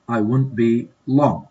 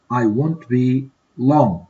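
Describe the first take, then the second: First: Said in the usual way. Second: Drawn out slowly, word by word; slow model. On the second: Shown as a demonstration. Teacher modeling the reply for students, slow. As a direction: stretch "I won't be long" out slowly for learners. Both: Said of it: "Complete these dialogues in a suitable way".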